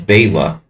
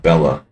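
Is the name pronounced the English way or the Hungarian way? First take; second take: Hungarian; English. First: The name is said with its Hungarian pronunciation. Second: The name is said with an English-style pronunciation. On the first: The speaker calls it right. "It's Bela" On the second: The speaker calls it wrong. "not Bella"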